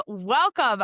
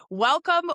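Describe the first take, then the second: First: Said in the usual way. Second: High, loud, bright-eyed welcome; excited welcome. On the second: Real, not acted. Podcast host greeting her guest, excited and loud. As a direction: throw the welcome up high with a burst of energy.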